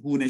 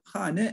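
First: The first syllable has a 'u' vowel. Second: The first syllable has an 'a' vowel. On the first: This is the everyday spoken form, especially in Tehran. "bilhassa Tahran'da arkadaşlar hune şeklinde kullanılıyor" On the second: This is the standard form of the word. "hane ev arkadaşlar"

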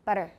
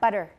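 First: The middle consonant is a quick tap. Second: The same.

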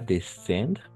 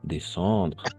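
First: The 'en' is said as a plain 'en'. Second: The 'en' is said as a nasal 'on'. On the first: The speaker calls it wrong. "pas descendre" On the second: The speaker calls it right. "on va prononcer on"

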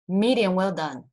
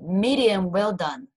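First: It is said quickly and smoothly. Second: It is said slowly, syllable by syllable. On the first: "我们很快念一次" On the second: "就一个音节一个音节"

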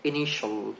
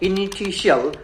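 First: The ending is said as one syllable. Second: The ending is said as two syllables. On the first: The speaker calls it right. "আজকে থেকে আমরা এটাকে উচ্চারণ করব" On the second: The speaker calls it wrong. "আমরা অনেকে বলতে পারে ইনিশিয়াল, এটা হবে না"

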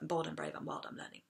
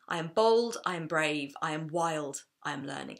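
First: The list is spoken quickly. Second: The list is spoken at a normal pace.

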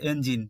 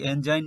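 First: The second vowel is a short 'i'. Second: The second vowel sounds like 'eye'. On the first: This is an exception to the rule. The speaker calls it right. "এটি এনজাইন না হয়ে হচ্ছে এনজিন" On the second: This follows the magic e rule. The speaker calls it wrong. "এখানে এনজাইন হওয়া উচিত ছিল"

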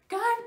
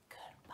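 First: It is said loudly. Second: It is said quietly.

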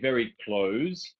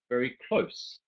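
First: Close sounds like the verb meaning to shut. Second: Close sounds different from the verb meaning shut. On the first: The speaker calls it wrong. "we don't say very close" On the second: The speaker calls it right. "slightly different pronunciation"

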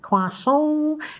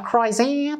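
First: It is said with a French pronunciation. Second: It is said with an American English pronunciation. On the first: This is the fancy foreign way to say it. The speaker calls it right. "it's a croissant" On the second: This is the ordinary local way to say it. The speaker calls it wrong. "It's not a croissant"

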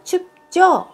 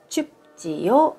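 First: The ending is contracted into one syllable, jyo. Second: The ending is said as two syllables, ji-yo.

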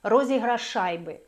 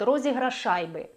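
First: The two sh sounds merge into one. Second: The two sh sounds merge into one.

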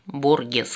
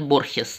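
First: The middle consonant is a hard g sound. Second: The middle consonant is a breathy h sound. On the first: It is read as it is spelled. "как правильно читается?" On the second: It is how most people say it. "Все говорят Борхес"

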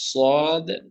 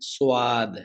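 First: The vowel follows directly without a w-glide. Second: A w-glide comes before the vowel. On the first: The speaker calls it right. "ওয়া এর সঙ্গে ওয়াও নেই।" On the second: The speaker calls it wrong. "অনেকেই কি উচ্চারণ করেন যে সোয়াদ"

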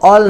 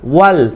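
First: The word begins with an o sound. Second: The word begins with a clear w sound. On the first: The speaker calls it wrong. "অল না" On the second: The speaker calls it right. "ওয়াল স্পষ্ট"

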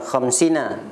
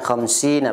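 First: The vowel after khams is cut short. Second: The vowel after khams is drawn out long. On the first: The speaker calls it wrong. "bukan khamsina" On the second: The speaker calls it right. "khamsi di di ayun sedikit"

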